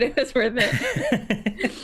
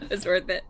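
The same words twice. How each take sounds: First: Slowly drawn out through laughter; slow laughing. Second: Said in the usual way. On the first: Acted. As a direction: stretch it out, laughing.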